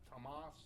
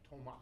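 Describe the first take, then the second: First: The final S sound is pronounced. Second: The final S sound is silent. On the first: The speaker calls it wrong. "It's not Thomas" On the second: The speaker calls it right. "you don't pronounce the S at the end"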